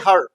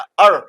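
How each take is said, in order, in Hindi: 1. शुरुआती h की ध्वनि बोली जाती है। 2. शुरुआती h की ध्वनि गिरा दी जाती है।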